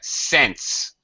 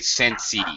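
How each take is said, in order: First: It is one syllable ending in an s sound. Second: It has an extra vowel added at the end. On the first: The speaker calls it right. "Just sense. One syllable word" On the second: The speaker calls it wrong. "Don't say sensey"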